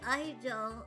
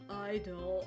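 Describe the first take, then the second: First: It is said in the speaker's typical character voice. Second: It is said in an unusual, put-on voice.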